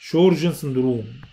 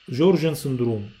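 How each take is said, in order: First: The name begins with an sh sound. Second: The name begins with a j sound. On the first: "لقيت انها بتتنطق بالشين" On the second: "حسب نطق دكتوره سحر"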